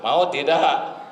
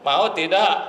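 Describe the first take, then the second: First: Said in the usual way. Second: Higher, louder repeat on tidak; repeated question, raised and insistent; pressing louder ask. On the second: Real, not acted. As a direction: push the crowd for an answer. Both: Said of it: "apakah Ibu mau punya suami jujur".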